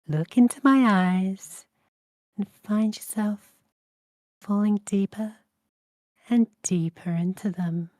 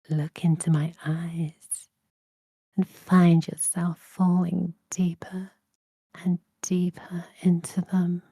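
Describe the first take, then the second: First: The voice sounds warm and comforting. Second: The voice sounds seductive and alluring. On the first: "Or I could do it comforting" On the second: "I can do this seductively"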